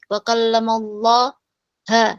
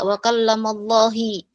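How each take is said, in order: First: The word Allah ends with an a vowel. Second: The word Allah ends with an i vowel. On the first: "maka itu salah" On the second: "maka itu salah"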